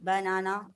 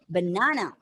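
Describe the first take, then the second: First: All three syllables have the same weight. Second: One syllable is louder and longer than others. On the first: The speaker calls it wrong. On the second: The speaker calls it right.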